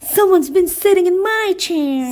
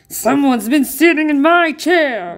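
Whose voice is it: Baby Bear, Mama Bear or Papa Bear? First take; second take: Mama Bear; Papa Bear. First: It is said in Mama Bear's voice. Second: It is said in Papa Bear's growling voice.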